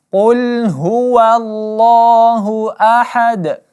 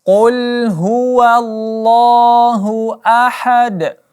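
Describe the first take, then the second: Both takes have the same delivery.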